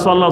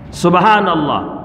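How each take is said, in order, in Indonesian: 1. Frasa itu diucapkan tidak jelas menjadi gumaman singkat. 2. Setiap suku kata dalam frasa itu diucapkan dengan jelas. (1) "Akhirnya lama-lama jadi swallow ... Tidak jelas" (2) "Yang baca tu jelas subhanallah, tidak ada swallow"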